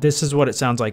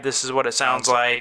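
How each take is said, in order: First: The voice has its normal, unshifted pitch. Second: The voice is shifted up to a very high pitch. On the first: "This is what it sounds like standard" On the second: "If we go all the way to high"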